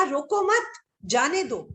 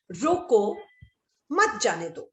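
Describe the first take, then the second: First: रोको मत run together high, break, then जाने दो; pause after मत. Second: रोको, a clear break, then मत जाने दो together; pause after रोको. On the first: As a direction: join मत to रोको, pause, let जाने दो fall. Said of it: "सिर्फ एक अल्प विराम का अंतर है।". (रोको मत साथ, विराम, फिर जाने दो) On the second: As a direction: stop after रोको and start afresh on मत. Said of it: "आप अल्प विराम कॉमा नहीं लगा सकते". (रोको के बाद विराम, फिर मत जाने दो) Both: Shown as a demonstration.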